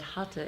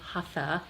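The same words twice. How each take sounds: First: It is pronounced in a Sanskrit style. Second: It is pronounced in a plain English style.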